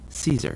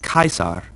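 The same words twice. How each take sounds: First: The word begins with a soft, non-K sound. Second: The word begins with a hard K sound. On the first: The speaker calls it wrong. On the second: The speaker calls it right. "our classical pronunciation always has the C sound like a K"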